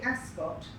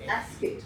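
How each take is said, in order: First: The word ends with an 'ot' sound. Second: The word ends with an 'et' sound. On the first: The speaker calls it wrong. "if you say Ascot, you're wrong" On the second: The speaker calls it right. "It is Ascot, so it ends E T"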